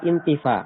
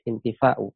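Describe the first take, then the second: First: It ends on a long vowel, no glottal stop. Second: A glottal stop follows the long vowel. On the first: It is shortened to fit the poem's meter. "dibaca intifa ... bil qasri dengan e, memangkas hamzahnya" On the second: This is the original full form. "aslinya adalah intifa'u, ada hamzahnya"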